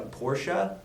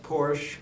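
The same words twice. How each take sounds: First: "Porsche" said as POR-shuh; two-syllable Porsche. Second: "Porsche" said as PORSH; one-syllable Porsche. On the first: Retold or imitated. Calling out co-host's boast, "Porsche" as POR-shuh. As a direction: pronounce "Porsche" with an uh on the end. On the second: Shown as a demonstration. Correcting co-host, "Porsche" clipped to PORSH. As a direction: pronounce "Porsche" with no vowel on the end. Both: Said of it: "it's actually pronounced Porsche".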